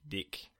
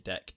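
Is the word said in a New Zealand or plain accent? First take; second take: New Zealand; plain. First: It is said in a New Zealand accent. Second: It is said in the speaker's own accent.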